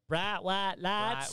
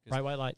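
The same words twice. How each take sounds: First: Said in a drawn-out Southern drawl. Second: Said plainly without a Southern drawl. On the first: This imitates how someone else says it. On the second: This is the speaker's own everyday way.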